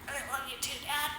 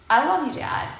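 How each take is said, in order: First: It is forced out, tense and reluctant. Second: It comes out easily, warm and sincere.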